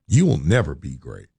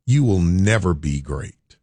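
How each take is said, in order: First: Lower, final verdict. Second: Slow cold verdict. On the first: Boss's verdict echoed, lower and heavier. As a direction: drop lower and let it fall like a door closing. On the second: Boss dismissing him with a slow verdict. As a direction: say it slowly, flat and final. Boss's harsh verdict, retold. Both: Retold or imitated.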